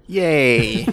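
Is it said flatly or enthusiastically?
flatly. It is said flatly, without enthusiasm.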